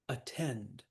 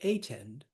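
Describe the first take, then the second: First: The stress is on the second syllable. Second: The stress is on the first syllable. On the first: The speaker calls it right. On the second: The speaker calls it wrong. "We don't say attend"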